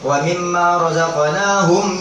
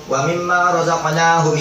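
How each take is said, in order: First: The final m sound is pronounced clearly. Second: The final m sound is blurred and passed over. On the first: The speaker calls it right. "harus dijelasin mim matinya" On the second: The speaker calls it wrong. "nggak boleh"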